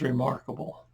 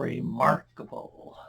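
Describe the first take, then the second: First: Said in the usual way. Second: "remarkable" whispered slowly; hushed amazement. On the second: Acted. Preacher rephrasing the healed man's answer, "remarkable" in hushed amazement. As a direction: draw out "remarkable" in a slow, voiceless hush.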